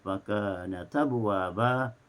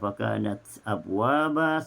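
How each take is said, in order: First: The t runs straight into abwaba's vowel. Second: Abwaba starts with a clear glottal stop. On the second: "seperti Hafs"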